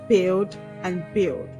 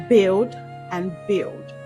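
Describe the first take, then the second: No difference in how they are said.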